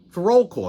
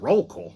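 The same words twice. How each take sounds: First: Said in the usual way. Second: "Roll call" rising as a question; puzzled echo. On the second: Retold or imitated. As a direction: echo "Roll call" in disbelief, lifting the end. Echoes it in disbelief.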